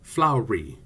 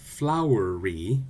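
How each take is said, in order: First: The word is said with two syllables. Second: The word is said with three syllables. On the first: "a contraction which only has two syllables" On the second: "which has three syllables"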